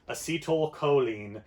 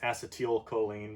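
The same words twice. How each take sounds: First: The first syllable is a soft 'uh' sound. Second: The first syllable sounds like the word 'ass'. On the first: The speaker calls it right. "So I usually pronounce it acetyl, like you take acet" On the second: The speaker calls it wrong. "sometimes pronounced acetylcholine, but that has the A word in it"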